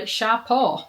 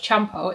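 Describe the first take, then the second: First: The name begins with an 'sh' sound. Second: The name begins with a 'ch' sound. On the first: The speaker calls it right. "it's actually" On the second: The speaker calls it wrong. "I've been pronouncing this wrong, I thought it was"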